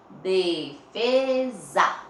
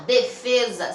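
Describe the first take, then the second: First: "Defesa" stretched very slowly with a buzzing Z; louder, syllable by syllable "Defesa", the S as Z; Z sound shown. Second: Said in the usual way. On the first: Shown as a demonstration. Teacher letting pupils hear the Z, drawn out and emphatic. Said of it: "olha o som do Z aí". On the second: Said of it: "olha o som do Z".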